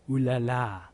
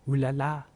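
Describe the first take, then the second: No difference in how they are said.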